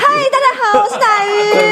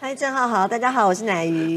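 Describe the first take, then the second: First: The greeting sounds confident and lively. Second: The greeting sounds timid and unsure.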